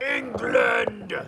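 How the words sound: The word is said with proud, drawn-out emphasis. "They say it with pride"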